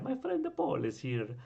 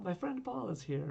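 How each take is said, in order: First: It is said in a Mario impression. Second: It is said in his normal voice.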